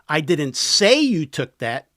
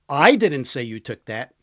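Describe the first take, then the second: First: The word 'say' carries the strongest stress. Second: The word 'I' carries the strongest stress. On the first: It was only implied. "I implied it" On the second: Someone else said it. "Somebody else did"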